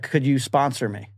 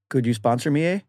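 First: It is said in a plain, ordinary accent. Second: It is said in a Canadian accent.

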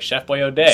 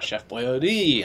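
First: The last part is said like 'oh-day'. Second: The last part is said like 'oh-dee'. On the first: The speaker calls it wrong. "the majority of people think it's O'Day" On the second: The speaker calls it right. "Once you get it"

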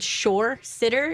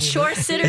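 First: It is said at a normal, relaxed speed. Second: It is said quickly, rushed together.

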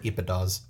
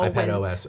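First: The name is blended into one flowing word. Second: The end is said as separate letters O-S.

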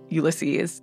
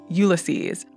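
First: The title is said the American way. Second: The title is said the British or Irish way. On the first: "I'm going to pronounce it Ulysses throughout the rest of the episode because I have an unrefined American accent" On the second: "People in Ireland and Britain and other places often pronounce it"

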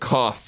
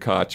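First: The name is said with a German pronunciation. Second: The name is said with an anglicized pronunciation. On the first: "it would be more like Koch in German" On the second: "we pronounce it Koch Media"

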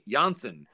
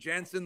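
First: The surname has a Dutch pronunciation. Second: The surname has an English pronunciation. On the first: This is how he preferred his name said earlier. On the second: This is how his name is said now.

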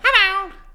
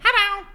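First: It is said in an Elmo-like voice. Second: It is said in a parrot-like voice.

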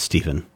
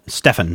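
First: The middle consonant is a v sound. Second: The middle consonant is an f sound. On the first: This is the name's intended pronunciation. The speaker calls it right. "No, it's Stephen" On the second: This is how others mispronounced the name. The speaker calls it wrong. "Nobody could pronounce it. And so it was Stefan"

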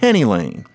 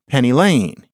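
First: The stress falls on the word Penny. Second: The stress falls on the word Lane. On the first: The speaker calls it wrong. "You don't say" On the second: The speaker calls it right. "You would say"

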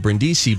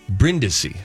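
First: The name has an anglicized American pronunciation. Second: The name has a traditional Italian pronunciation. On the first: The speaker calls it wrong. "the artist formerly known as [name]" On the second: The speaker calls it right. "That's the Italian pronunciation"

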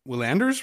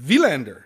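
First: The name is said with an anglicized pronunciation. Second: The name is said with a Swedish-style pronunciation. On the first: This is the version in current use. "are we getting Willander's name wrong as well?" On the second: This may be the original pronunciation. "Because I've heard Vilander. like the tennis player Mats Vilander"

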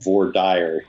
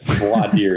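First: It uses the common local Kansas pronunciation. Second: It uses the standard pronunciation of the term. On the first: The speaker calls it wrong. "It is very often voir dire here" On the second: The speaker calls it right. "but voir dire is correct"

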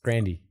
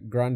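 First: The name ends with an 'ee' sound. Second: The name ends with an 'ay' sound. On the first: The speaker calls it right. "It's Grandy" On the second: The speaker calls it wrong. "is said wrong too"

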